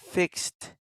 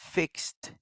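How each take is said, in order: Both takes have the same delivery.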